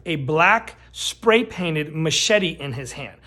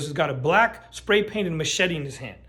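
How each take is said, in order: First: Drawn-out dramatic restatement; slow emphatic repeat. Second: Said in the usual way. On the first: Shown as a demonstration. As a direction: spell it out slow for effect. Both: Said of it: "Let me repeat that".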